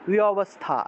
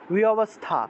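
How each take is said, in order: First: The v is a w with lips apart. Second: The same.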